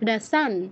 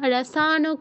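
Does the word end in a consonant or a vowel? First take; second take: consonant; vowel. First: The word ends on a bare n consonant. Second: The word ends with a vowel after n. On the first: The speaker calls it right. "নয়ের পূর্ণ উচ্চারণ কেউ করবো না" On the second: The speaker calls it wrong. "রসানও কেউ বলবো না"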